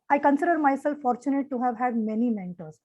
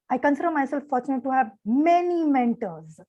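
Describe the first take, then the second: First: It is said in an even, unemotional tone. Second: It is said with strong feeling in the voice. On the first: The speaker calls it wrong. "throughout the speech it was the same tone" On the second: The speaker calls it right. "a lot of emotion in the voice would have really taken the uh, whole speech to a uh, new level"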